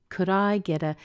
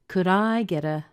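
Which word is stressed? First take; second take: I; I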